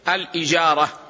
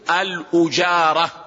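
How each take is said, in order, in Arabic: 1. تبدأ الكلمة بالحركة i. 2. تبدأ الكلمة بالحركة u. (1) "فأفصحها هو كسر الهمز" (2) "ويصح أن تقول الأجارة بالضم"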